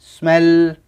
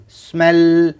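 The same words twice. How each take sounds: The two takes are said the same way.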